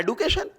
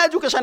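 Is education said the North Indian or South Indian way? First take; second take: South Indian; North Indian. First: It is said the South Indian way, with d. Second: It is said the North Indian way, with j. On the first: "Tamil Nadu में यह एडुकेशन" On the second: "पूरे हरियाणा में एजुकेशन है"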